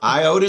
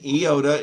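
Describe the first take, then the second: First: It is pronounced the English way. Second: It is pronounced the Greek way. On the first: The speaker calls it wrong. "iota is English" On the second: The speaker calls it right. "but in iota is Greek"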